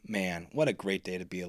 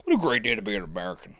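First: Said in the usual way. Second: Quick put-on patriotic voice; mock patriotic. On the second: Host joking about the great day, mock-patriotic. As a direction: rattle it off as a hammed-up slogan.

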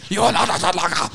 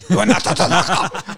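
First: Fast, hammed-up angry line; mock angry quote. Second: Half-choked laughing line; choking on the words. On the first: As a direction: spit it out in mock anger. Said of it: "He's so angry". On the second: Retold or imitated. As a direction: force it out as if choking. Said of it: "Like he's almost choking on it".

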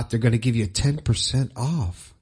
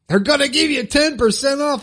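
First: Said in the usual way. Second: High, excited sales pitch; hyped-up promo. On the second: Pretend. Host hyping a sponsor discount to listeners, playfully excited. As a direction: pitch it up like a big announcement. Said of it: "I need some special sound effects for that".

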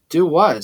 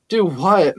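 First: Said in the usual way. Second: Mocking echo of his question; laughed, incredulous. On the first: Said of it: "Xavier asked". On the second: A narrator's reading. Max echoing Xavier's innocent question, amused and incredulous. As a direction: throw it back with amused disbelief. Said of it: "Max laughed".

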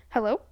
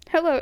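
First: HELLO with a questioning rise at the end; phone-answering hello. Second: Said in the usual way. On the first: Retold or imitated. Cohost teasing the greeting, phone-answering hello. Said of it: "Like I'm answering the phone". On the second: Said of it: "it sounded like you said, "Hello?".

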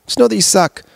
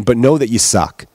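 First: Just know that you suck, sung out much higher; high mocking repeat. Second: Said in the usual way. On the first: Shown as a demonstration. Comedian repeating the jab to hypocrites in a high mocking voice. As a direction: jump way up and mock it.

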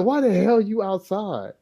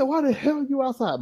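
First: Slower, lightly voiced father pressing the question; a hint of a stern dad, drawn out; dad repeats slowly. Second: Higher, softer retold dad, mildly surprised; a hint of a puzzled father; dad's question. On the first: Father asking his son again why he's out, slowly. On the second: Father finding his young son outside, mildly puzzled. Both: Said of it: "He said".

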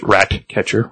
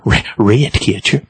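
First: Said in the usual way. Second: "Ratcatcher" with the first vowel stretched toward "ray"; odd vowel. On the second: Shown as a demonstration. Narrator toys with "Ratcatcher", said "rayt-catcher".

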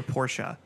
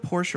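First: Porsche as "POR-sha"; second option: Porsche ending in "uh"; two-syllable Porsche. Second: Porsche as "porsh", silent final e; first option: Porsche said "porsh"; one-syllable Porsche. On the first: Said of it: "they say Porsche". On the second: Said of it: "Is it Porsche or Porsche?". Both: Shown as a demonstration.

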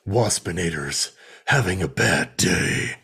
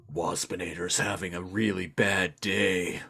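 First: Waspinator voice. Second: Low, soft buzzy robot-wasp whine; mock Waspinator moping about his day. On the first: Retold or imitated. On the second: To the co-host, a low mock Waspinator lament. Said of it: "been like".

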